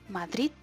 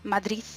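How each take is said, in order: First: The final sound is a t. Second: The final sound is a th sound. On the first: "la tercera como T ... Esa no me gusta nada" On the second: "Dos como Z, que es la que yo uso y la que más gente usa"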